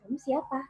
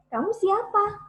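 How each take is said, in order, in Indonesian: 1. Diucapkan dengan pelan, tenaga suaranya kecil. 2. Diucapkan dengan tenaga suara yang sedang.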